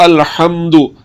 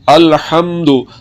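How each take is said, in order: The two takes are said the same way.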